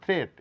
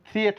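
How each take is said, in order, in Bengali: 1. স্বরধ্বনিটি একটি ধ্বনি হিসেবে উচ্চারিত হয়। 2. স্বরধ্বনিটি দুটি ধ্বনিতে ভাগ হয়। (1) "এ সাইলেন্ট" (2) "থ্রিয়েট না বলে"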